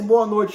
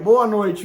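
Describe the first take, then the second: First: It sounds cold, like telling him to leave. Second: It sounds warm, like calling him closer.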